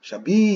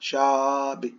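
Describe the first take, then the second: First: The stress is on the second syllable. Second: The stress is on the first syllable. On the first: "ಇಲ್ಲಿ ಕೊಟ್ಟಿದ್ರ ಶಬೀ" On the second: "ಇದ್ರ ಮೇಲೆ ಶಾ ಅನ್ಬೇಕಂತ ಹೇಳಿ"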